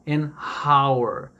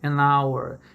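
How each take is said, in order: First: The h at the start of hour is pronounced. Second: The h at the start of hour is silent. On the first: The speaker calls it wrong. "E não" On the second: The speaker calls it right. "O H não tem som"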